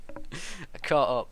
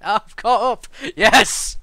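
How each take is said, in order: First: Slow, louder afterglow of a cheer; drawn-out triumph. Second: Very loud, high shout of triumph; triumphant shout. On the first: Streamer savouring having caught up, slow and drawn out. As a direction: stretch the words out, still loud. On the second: Streamer celebrating having caught up, real triumphant shout. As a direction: yell it out in victory. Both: Real, not acted.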